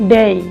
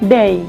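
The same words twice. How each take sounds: First: The vowel glides toward an ee sound. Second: The vowel glides toward an ee sound.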